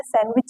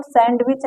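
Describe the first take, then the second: First: सैंडविच with a silent d, "san-wich"; सैंडविच without any d; correct pronunciation. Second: सैंडविच with a clear d, "sand-wich"; सैंडविच spelled out with the d; wrong pronunciation. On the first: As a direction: say सैंडविच gliding from n to w. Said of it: "सैंडविच कहते हैं". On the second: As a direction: say सैंडविच sounding the d fully. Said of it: "इसको सैंडविच नहीं कहते". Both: Shown as a demonstration.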